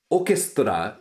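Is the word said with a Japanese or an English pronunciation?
Japanese. It is said with a Japanese pronunciation. "orchestra is already an improper pronunciation"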